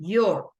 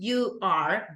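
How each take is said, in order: First: It is said as one short contracted syllable. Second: It is said as two full separate words. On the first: "but you do the contraction" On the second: "You are not saying you are"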